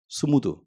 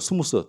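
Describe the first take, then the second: First: The word ends with a d sound. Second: The word ends with an s sound. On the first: The speaker calls it right. "이게 그게 맞는 발음이거든요" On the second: The speaker calls it wrong. "잘못된 발음이 죠"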